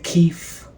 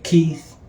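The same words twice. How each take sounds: First: The name ends with an f sound. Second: The name ends with a th sound. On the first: "with an F sound" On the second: "Some people say Keith"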